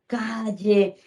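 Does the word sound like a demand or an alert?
demand. It is said as an insistent demand. The child wants to be taken outside. "quiere salir a la calle... lo jala"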